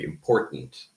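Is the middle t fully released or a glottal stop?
glottal stop. The middle t is a glottal stop. This is how people in America say it. "people in America reduce that to a glottal stop"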